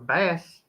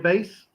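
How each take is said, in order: First: The vowel sounds like the one in mass. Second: The vowel sounds like the one in face. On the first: It is the fish. "He can fish for bass" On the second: It is the musical instrument. "I can play bass"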